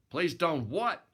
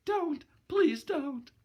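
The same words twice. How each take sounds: First: A louder, impatient bark of a question; irritated snap. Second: Put-on high, frightened pleading girl's voice; hunted cry. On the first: Acted. Boxer snapping at the cringing girl, irritated. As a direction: snap it back, annoyed. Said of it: "I snapped in some irritation". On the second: Gloria begging the boxer not to hurt her, high frightened plea. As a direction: plead shrilly as if cornered. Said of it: "She gave a kind of hunted cry".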